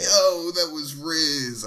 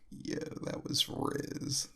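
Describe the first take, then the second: First: It is said loudly, at full volume. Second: It is said quietly, under the breath.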